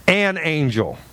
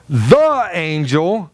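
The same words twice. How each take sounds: First: "an" leaned on, falling; stress on an. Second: "the" drawn out slowly, rising; stress on the. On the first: Pastor contrasting an with the angel, stress on "an". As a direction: make "an" the key word. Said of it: "you will see that it says". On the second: Pastor stressing "the" to mean Christ, slow emphasis. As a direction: stretch "the" slowly to single it out. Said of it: "When it says". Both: Shown as a demonstration.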